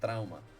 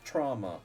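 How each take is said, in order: First: The word is said with Spanish pronunciation. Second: The word is said with English pronunciation. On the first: The speaker calls it wrong. "instead of trauma" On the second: The speaker calls it right. "it is pronounced trauma"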